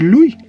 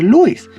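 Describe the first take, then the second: First: The final S sound is silent. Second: The final S sound is pronounced. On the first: The speaker calls it right. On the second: The speaker calls it wrong.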